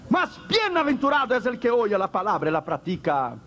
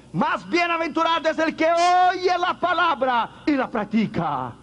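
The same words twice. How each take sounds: First: Said in the usual way. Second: High ringing proclamation. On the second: Acted. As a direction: call it out high like a revelation. Preacher proclaims Jesus' words.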